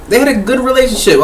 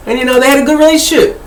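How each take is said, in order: First: Said in the usual way. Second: Said higher and quicker, lightly lifted; higher, faster. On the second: Shown as a demonstration. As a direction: raise the pitch and rush through it.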